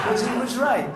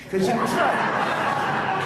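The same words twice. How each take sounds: First: Higher and louder, pressing the point home; loud, emphatic insistence; emphatic repeat. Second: Laughing it out, high and breathy; real laugh through the words. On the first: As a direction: say it again, this time firmly. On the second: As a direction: breaks into a laugh as he admits it. Laughing at himself, caddy was right. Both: Real, not acted.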